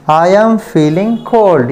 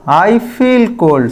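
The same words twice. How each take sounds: First: Slow, deliberate model of the mistake; slow wrong example. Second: Very slow, deliberate model sentence; slow correct example. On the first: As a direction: show the wrong form slowly. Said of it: "ये हो गया wrong". (धीरे-धीरे गलत उदाहरण) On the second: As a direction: say it word by word for the class. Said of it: "ये रहा right". (धीरे-धीरे सही उदाहरण) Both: Shown as a demonstration.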